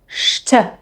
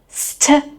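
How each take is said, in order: First: It begins with a sh sound. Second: It begins with a plain s sound. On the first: The speaker calls it right. "you pronounce it st" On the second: The speaker calls it wrong. "instead of pronouncing it st"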